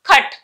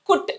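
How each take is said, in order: First: The vowel sounds like 'uh' in cup. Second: The vowel sounds like 'oo' in put. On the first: The speaker calls it right. "కట్ అంటున్నాం" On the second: The speaker calls it wrong. "కుట్ అనట్లేదు"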